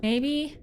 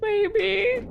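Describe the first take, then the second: First: Said in the usual way. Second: Very high, rising pitch; squeaky amused maybe. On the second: Real, not acted. Streamer doubting their own guess, high squeak. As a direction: squeak it out just after giggling. Repeats guess after laughing.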